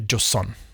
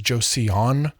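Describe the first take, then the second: First: The word is said like 'Joe's son'. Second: The word is not said like 'Joe's son'. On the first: The speaker calls it right. "it's really Joseon, like Joe's son" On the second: The speaker calls it wrong. "often uh, romanized as Joseon"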